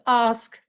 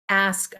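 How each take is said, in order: First: The word is said in a British RP accent. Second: The word is said without a British RP accent.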